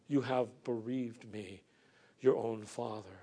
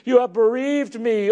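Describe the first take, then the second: First: Soft, hushed echo of "You have bereaved me"; quiet repeat. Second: Louder, higher anguished cry on "You have bereaved me"; crying out a lament. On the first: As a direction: let it fall almost to a murmur. Quiet echo of Jacob's lament. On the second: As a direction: wail it out as the grieving father Jacob. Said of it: "he cried out a lamentation". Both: Acted.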